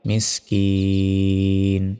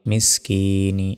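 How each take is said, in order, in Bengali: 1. শব্দটি ব্যঞ্জন 'n' দিয়ে শেষ হয়। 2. শব্দটি ছোট 'i' স্বরধ্বনি দিয়ে শেষ হয়। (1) "থামলে" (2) "নুন জের নি"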